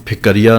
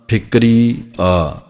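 First: ਫਿਕਰੀਆ as "phik-kariya", full a after k; doubled-k misreading. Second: ਫਿਕਰੀ ਆ slowly, "phikri", pause, long "aa"; split correct reading. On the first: Teacher showing what not to say, ਫਿਕਰੀਆ as "phik-kariya". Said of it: "ਕੱਕੇ ਉੱਤੇ ਅੱਧਕ ਨਹੀਂ ਲਾਉਣੀ". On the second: Teacher modelling correct reading, ਫਿਕਰੀ ਆ slow and split. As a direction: separate the final aa of ਫਿਕਰੀ ਆ, no double k. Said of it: "ਫਿਕਰੀ ਆ ਪਾਠ ਹੈ". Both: Shown as a demonstration.

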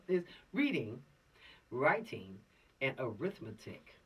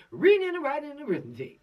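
First: Said in the usual way. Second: Put-on readin' and writin' and 'rithmetic, dropped g's, old-time singsong; old-school saying. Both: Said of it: "That's how they said it back in the day".

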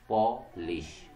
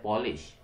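First: पॉलिश said slowly as two syllables, पॉ-लिश; split into syllables. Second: Said in the usual way. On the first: Shown as a demonstration. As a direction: draw पॉलिश out in two clear beats. (पॉलिश को दो syllables में धीरे-धीरे) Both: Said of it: "दो syllables हैं".

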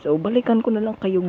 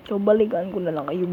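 No difference in how they are said.

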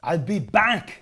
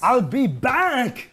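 First: Put-on slow Austrian-accent I'll be back, drawn out; lightly voiced Austrian movie-star line; slow Arnold catchphrase. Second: Put-on very slow, slightly higher Austrian-accent I'll be back; the Austrian movie star's slow line again; very slow Arnold catchphrase. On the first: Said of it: "you've done it again". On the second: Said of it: "The I'll be back thing".

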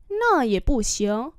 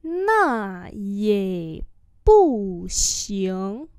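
First: Said in the usual way. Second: Nà yě bù xiang syllable by syllable; slow demonstration. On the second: Shown as a demonstration. Teacher repeats "Nà yě bù xiang" for learners, slowly. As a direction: draw out Nà yě bù xiang.

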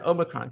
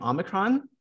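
First: "Omicron" opened with a long OH; general American pronunciation. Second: "Omicron" opened with a short AH; newer American pronunciation. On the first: Host saying what they've always said, long-O "Omicron". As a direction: say "Omicron" as OH-mi-cron. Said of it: "that's the general pronunciation in America". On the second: Host reporting what more Americans say, short-AH "Omicron". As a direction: say "Omicron" as AH-mi-cron. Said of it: "I noticed more Americans recently saying". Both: Shown as a demonstration.

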